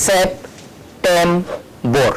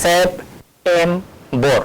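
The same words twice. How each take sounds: First: Very slow, drawn-out syllables; slow syllable demo. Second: Slow, deliberate second take; slow syllable demo. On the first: Teacher sounding out a word slowly for students. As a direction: stretch every part of the word. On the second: Teacher repeating the word slowly for students. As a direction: pull each syllable apart slowly. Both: Shown as a demonstration. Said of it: "ওই সাউন্ডটা কিরকম হচ্ছে".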